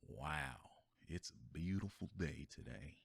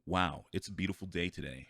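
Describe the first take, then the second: First: It is said in a relaxed, drawn-out Southern drawl. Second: It is said in a plain, unstretched way. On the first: The speaker calls it right. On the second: The speaker calls it wrong.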